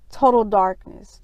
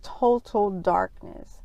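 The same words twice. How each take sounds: First: Said in the usual way. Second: "total darkness" said slowly and softer, each word weighted; slow emphatic repeat. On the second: Shown as a demonstration. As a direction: lean on "total darkness", dropping the voice.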